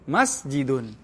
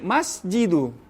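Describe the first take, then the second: First: The word ends with an n sound. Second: The word ends with a vowel. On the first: The speaker calls it right. "maka dibaca tan tanwin" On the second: The speaker calls it wrong.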